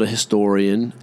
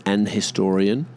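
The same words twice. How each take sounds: First: Said in the usual way. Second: "an" in front of "historian"; formal article. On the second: Shown as a demonstration. Noting what they like you to say, formal article. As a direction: link "an" into "historian". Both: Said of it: "They like you to say".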